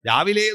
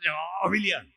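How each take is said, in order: First: The word is said plainly, without extra emphasis. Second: The word is said with heavy, drawn-out emphasis. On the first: Any time in the morning. "ആറു മണി മുതൽ പത്തു മണി വരെ രാവിലെയാണ്" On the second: Very early, before six o'clock. "അർത്ഥം മാറി, ആറു മണിക്ക് മുമ്പ് ആണ് രാവിലെ"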